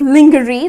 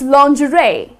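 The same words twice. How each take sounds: First: It is said the way it is spelled. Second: It is said unlike its spelling. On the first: The speaker calls it wrong. "if you look at the spelling, it's kind of lingerie. That's how people tend to pronounce it. But that's incorrect" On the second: The speaker calls it right. "The correct pronunciation is lingerie"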